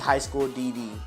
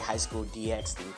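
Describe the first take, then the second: First: The X is left out between the Ds. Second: The X is spoken between the Ds. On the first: "when it should be high school D D" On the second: "I say high school D X D"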